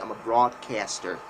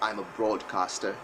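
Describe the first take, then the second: First: It is said in an American accent. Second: It is said in a non-American accent.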